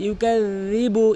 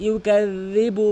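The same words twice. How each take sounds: Both takes have the same delivery.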